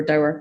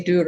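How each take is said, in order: First: "dower" rhymes with "flower"; Australian "dower". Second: "doer" said as one syllable, Scottish "doer" with a long oo; "doer" rhymes with "sure", Scottish. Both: Shown as a demonstration. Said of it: "whether you guys say doer or dower".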